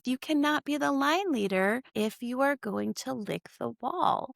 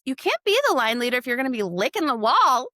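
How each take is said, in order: First: Blurted teacher rule. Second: Serious teacher rule. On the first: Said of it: "before I could even think". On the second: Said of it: "I was being serious". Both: Retold or imitated.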